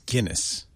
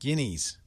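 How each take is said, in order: First: It sounds like the name of the beer. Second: It sounds like the plural word guineas. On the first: The speaker calls it right. "just like the beer" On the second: The speaker calls it wrong. "What did I say?"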